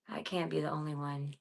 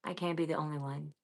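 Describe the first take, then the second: No difference in how they are said.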